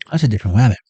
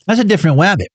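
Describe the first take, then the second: First: Said in the usual way. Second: Cartoon voice.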